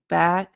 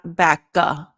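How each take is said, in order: First: The word ends in the K with just air. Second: A short vowel is added after the final K. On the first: The speaker calls it right. "It's just air" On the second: The speaker calls it wrong. "not backa. Don't add that vowel sound at the end"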